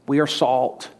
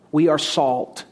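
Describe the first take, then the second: No difference in how they are said.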